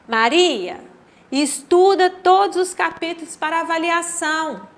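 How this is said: It is said with a pause after the first word. Maria is being told to study all the chapters.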